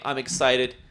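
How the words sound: It is said in a flat, lame way.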